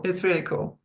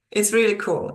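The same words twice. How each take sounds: First: Said in the usual way. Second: Enthusiastic. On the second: Real, not acted. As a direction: say It's really cool with a lift on really.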